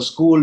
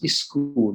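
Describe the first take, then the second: First: The word starts directly with the s sound. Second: An extra vowel sound comes before the s. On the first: The speaker calls it right. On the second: The speaker calls it wrong.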